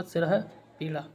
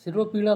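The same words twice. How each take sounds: First: "सिर है पीड़ा" as सिरह-पीड़ा, visarga sounded; correct form. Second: "सिरोपीड़ा" with an o after r; wrong form. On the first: Teacher correcting students, visarga sounded. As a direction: breathe an h after सिर in "सिर है पीड़ा". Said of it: "ये होगा". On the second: Teacher quoting the wrong word, o vowel. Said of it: "सिरोपीड़ा शब्द गलत है". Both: Shown as a demonstration.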